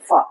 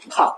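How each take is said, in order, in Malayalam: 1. ഈ വ്യഞ്ജനം ഫ ശബ്ദമാണ്. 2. ഈ വ്യഞ്ജനം ശ്വാസത്തോടുകൂടിയ പ ആണ്. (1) "ഇതിനെ നമുക്ക് ശബ്ദം മാറ്റി പറയും" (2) "ശരിക്കും പറഞ്ഞാൽ ഇത് ഫ അല്ല"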